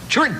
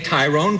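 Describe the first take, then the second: First: The name is clipped into one short syllable. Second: The name is said in its full, longer form. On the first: This is how people who knew him said it. The speaker calls it right. "it's Trun" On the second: This is the common way most people say it. The speaker calls it wrong. "Everyone that spells accordion wrong would say Tyrone Guthrie"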